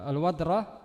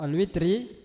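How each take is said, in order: First: The r is followed by an 'a' vowel. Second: The r is followed by an 'i' vowel. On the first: The word is in the accusative case. "kalau dengan menfathahkannya" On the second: The word is in the genitive after a noun. "kalau dengan mengkasrahkan huruf ra-nya"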